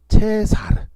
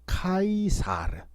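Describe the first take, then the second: First: It begins with a ch sound and 'e'. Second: It begins with a k sound and 'ai'. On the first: "츠 발음으로 어, 보통 발음합니다" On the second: "아에를 아이로 발음하거든요"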